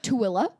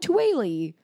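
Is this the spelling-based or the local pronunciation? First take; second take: local; spelling-based. First: It is said with the local town pronunciation. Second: It is read out as the spelling suggests. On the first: "they say it" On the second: "when I first saw it, I was like, oh"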